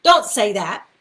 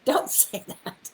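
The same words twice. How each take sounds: First: Loud, firm don't; firm warning. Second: Whispered through a laugh. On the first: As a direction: warn them off loudly. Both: Real, not acted.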